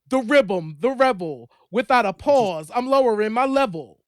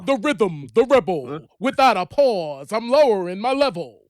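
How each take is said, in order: First: It is read in a normal speaking pitch. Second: It is said in a deeper, lower voice.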